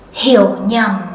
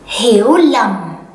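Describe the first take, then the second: First: It uses the northern Vietnamese pronunciation. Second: It uses the southern Vietnamese pronunciation.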